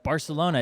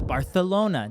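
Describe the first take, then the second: First: The 'c' is said as a plain 's' sound. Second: The 'c' is said as a 'th' sound. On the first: The speaker calls it wrong. "I thought it was just Barcelona" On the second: The speaker calls it right. "the T H's in Barcelona"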